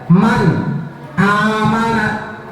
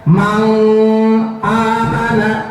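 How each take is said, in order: First: The first word ends in a clear n. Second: The first word ends in an ng sound. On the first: The speaker calls it right. "Jelas sesuai dengan tulisan juga" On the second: The speaker calls it wrong. "Awas jangan dibaca mang amana. Salah"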